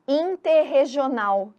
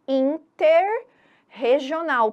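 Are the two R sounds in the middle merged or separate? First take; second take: merged; separate. First: The two R sounds merge into one sound. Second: Two separate R sounds are heard in the middle. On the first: The two parts blend into one word. The speaker calls it wrong. "E o som ficaria interregional" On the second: The word is built from two joined parts. The speaker calls it right. "Para eu ouvir os dois sons"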